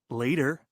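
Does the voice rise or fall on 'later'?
fall. The voice does not rise on 'later'.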